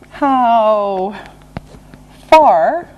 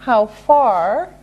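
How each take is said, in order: First: Drawn-out words, long pause between; slow and deliberate. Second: Said in the usual way. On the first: Shown as a demonstration. Teacher introducing a distance question, slow and separated. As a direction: stretch each word and separate them. Slow model phrase for learners.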